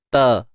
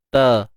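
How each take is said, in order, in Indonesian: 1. Konsonannya ringan dan tipis. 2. Konsonannya ringan dan tipis.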